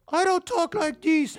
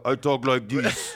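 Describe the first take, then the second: First: Very high, drawn-out squeaky protest; Brian's voice. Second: Brian overcompensating. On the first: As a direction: protest in an absurdly high kid voice. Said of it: "And at one point, he goes". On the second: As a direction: drag it out in a put-on manly voice. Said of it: "he made sure to overcome". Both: Retold or imitated.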